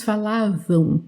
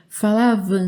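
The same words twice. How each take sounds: First: "falavam" ending in nasal "ão", gliding to w; Brazilian ÃO ending. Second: "falavam" ending in a plain nasal "an", no w glide. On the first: Teacher correcting to the Brazilian pronunciation, ÃO ending. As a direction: say "falavam" as "falávão". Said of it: "aqui no Brasil temos essa pronúncia". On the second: Teacher showing the ending Brazil rarely uses, AN ending. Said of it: "Não temos muito a pronúncia do an". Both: Shown as a demonstration.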